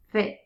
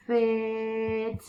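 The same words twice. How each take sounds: First: Said in the usual way. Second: "Fit" with long f and long vowel; sounded out. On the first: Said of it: "Say it fast". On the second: Shown as a demonstration. Teacher sounds out a word for new readers, "Fit" drawn out. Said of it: "Sound it out".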